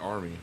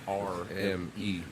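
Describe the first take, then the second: First: The letters are run together quickly. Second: The letters are spoken slowly and separately. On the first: "When you say it fast" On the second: "when you say it slow"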